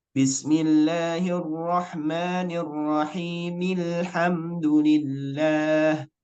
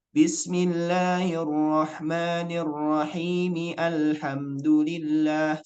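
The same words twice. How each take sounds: First: Slow chant gliding from "Bismillahirrahmanirrahim" straight into "Alhamdulillah" as "rahimil-hamdu"; linked correct reading. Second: Slow chant sounding the a of "Alhamdulillah" after "Bismillahirrahmanirrahim", "rahimi-alhamdu"; unlinked wrong reading. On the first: Teacher shows the proper reading, slow chant linking mim to lam. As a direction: recite joined, no a at the start of "Alhamdulillah". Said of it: "Cara baca yang benar".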